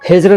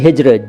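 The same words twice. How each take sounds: First: The middle consonant is a z sound. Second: The middle consonant is a j sound. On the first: The speaker calls it wrong. "हिज्र नहीं" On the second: The speaker calls it right. "ज के नीचे नुक्ता हिंदी में नहीं लगेगा"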